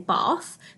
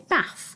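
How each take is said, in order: First: The vowel is a long 'ar' sound. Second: The vowel is a short 'a' sound. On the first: This is how people in the speaker's region say it. "where we live in the country, most people would say bath" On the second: This is how people in other regions say it. "in other areas of the country, people would say bath"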